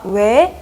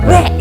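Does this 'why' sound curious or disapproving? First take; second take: curious; disapproving. First: It sounds like a genuinely curious question. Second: It sounds like a disapproving, threatening refusal. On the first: The speaker really wants to know the reason. The speaker calls it right. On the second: The speaker means no, it is not allowed. The speaker calls it wrong.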